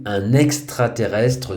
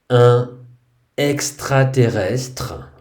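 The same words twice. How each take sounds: First: A linking n sound joins the two words. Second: The words are said without a linking consonant.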